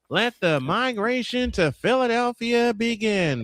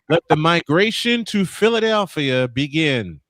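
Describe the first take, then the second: First: It is said in an imitated announcer voice. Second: It is said in a natural speaking voice.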